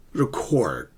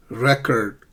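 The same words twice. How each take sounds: First: "record" as ri-KORD, falling; second-syllable stress. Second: "Record" as REK-erd; first-syllable stress. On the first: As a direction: lean on CORD in "record". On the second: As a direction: punch REC in "Record". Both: Shown as a demonstration. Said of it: "notice the shift in the stress".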